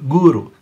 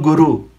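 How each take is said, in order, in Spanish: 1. La palabra se pronuncia al estilo sánscrito. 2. La palabra se pronuncia al estilo español. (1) "guru, sánscrito" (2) "No gurú, eso es español"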